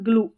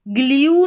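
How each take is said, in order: First: The vowel is pronounced plain 'oo' without a glide. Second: The vowel is pronounced 'yoo' with a y-glide. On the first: The speaker calls it right. "इसका ग्लू ऊ करके उच्चारण है" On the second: The speaker calls it wrong. "ग्ल्यू नहीं पढ़ेंगे, यू करके इसका उच्चारण नहीं है"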